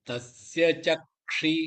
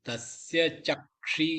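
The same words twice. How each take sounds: No difference in how they are said.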